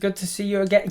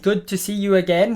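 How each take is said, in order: First: It is said at normal loudness and speed. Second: It is said louder and more slowly.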